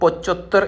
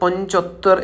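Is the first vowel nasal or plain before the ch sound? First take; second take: plain; nasal. First: There is no nasal sound before the ch. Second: A light nasal sound comes before the ch. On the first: The speaker calls it wrong. "നമുക്ക് ചിലപ്പം തോന്നും ഇത് പൊച്ചൊത്തർ എന്നാണ് അവർ പറയുന്നതെന്ന്" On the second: The speaker calls it right. "പക്ഷേ അത് പൊഞ്ചൊത്തർ എന്നാണ്"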